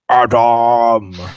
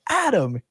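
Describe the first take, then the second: First: The name is yelled in a booming voice. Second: The name is said at a normal volume.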